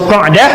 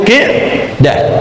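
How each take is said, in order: First: The first vowel is an open a sound. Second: The first vowel is a close i sound. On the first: This is the wording used in the hadith. "tapi lafaz hadisnya Qa'dah" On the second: This is the form by the rules of the language. "Walaupun secara bahasa Qi'dah"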